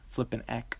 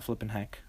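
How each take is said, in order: First: Flippin' eck with the h dropped, said eck. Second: Flippin' heck with a clear h on heck; plain flippin' heck. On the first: Correcting the quoted catchphrase to the right one, h dropped. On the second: Correcting a quoted catchphrase, first the wrong version with the h. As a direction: say flippin' heck the ordinary way, h fully sounded. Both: Shown as a demonstration. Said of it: "Sorry, not flippin' heck".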